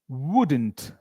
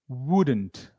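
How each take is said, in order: No difference in how they are said.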